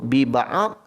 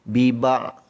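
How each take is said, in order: First: A vowel is sounded after the ain. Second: It ends on the ain with no dhad. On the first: "Kalau kita sebut bi-ba'ad, salah. Kerana ain itu dah meletakkan pada baris atas" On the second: "dia sebut ain saja, dha tak sebut ... Biba' salah"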